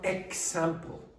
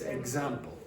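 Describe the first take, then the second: First: The x is said as voiceless 'ks'. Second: The x is said as voiced 'gz'. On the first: The speaker calls it wrong. "It's not example" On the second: The speaker calls it right. "it's example"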